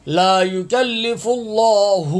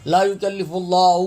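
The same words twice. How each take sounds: First: "اللہ" with heavy long o and clear final hu; correct recitation. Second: "اللہ" hurried, final haa weakened to bare vowel; common misreading. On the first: Teacher modelling correct reading, "اللہ" drawn out with clear haa. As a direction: slowly chant "لا یکلف اللہ", sounding the final haa. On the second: Teacher showing how many misread, "اللہ" with haa lost. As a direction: run through "لا یکلف اللہ" without a clear haa. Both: Shown as a demonstration. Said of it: "اکثر حضرات پڑھتے ہیں، الف حالی پڑھتے ہیں".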